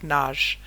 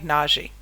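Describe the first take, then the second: First: The name ends in a soft 'j' sound. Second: The name ends in a hard 'gee' sound. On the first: "I believe it's pronounced more like Naj, but even that is pronounced incorrectly" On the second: "just to help you be able to understand how to spell it"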